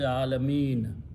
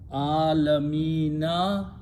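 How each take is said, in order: First: The word ends on the n sound. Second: The word ends with a short vowel after n. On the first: The reader stops at this word. "You stop, you say Alameen" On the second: The reading continues without stopping. "When you read, you read Rabbul Alamina"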